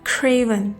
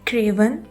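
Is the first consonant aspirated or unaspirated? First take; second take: aspirated; unaspirated. First: The first k has a puff of air. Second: The first k has no puff of air. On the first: The speaker calls it right. "पफ of air के साथ बोलना है" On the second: The speaker calls it wrong. "लेटर के को उर्दू के काफ की तरह"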